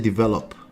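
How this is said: It is said with an American-style pronunciation. The speaker calls it right. "We say develop"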